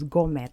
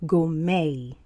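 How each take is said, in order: First: The final T sound is pronounced. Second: The final T sound is silent. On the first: The speaker calls it wrong. "I used to think that this word was gourmet" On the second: The speaker calls it right. "the T is not pronounced, it's silent"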